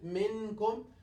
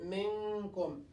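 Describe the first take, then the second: First: The n is pronounced fully and clearly. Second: The n is half-hidden with a held nasal sound. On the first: The speaker calls it wrong. "will not pronounce it one hundred percent minkum" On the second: The speaker calls it right. "We'll say min, minkum"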